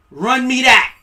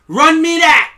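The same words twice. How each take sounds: First: Loud, high demand. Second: Even louder and higher; louder demand. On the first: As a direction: hand it over now. Repeated demand, second louder. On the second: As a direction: push the demand harder. Repeated demand, escalated. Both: Acted.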